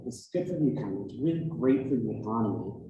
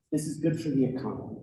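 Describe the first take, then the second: First: Rattled off fast, parroting with scorn; mocking repetition. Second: Said in the usual way. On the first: Commenter mocking the legislators' slogan, fast and scornful. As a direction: toss it off quickly like a tired slogan. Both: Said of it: "we keep being told that".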